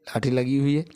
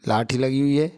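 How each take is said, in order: Both takes have the same delivery.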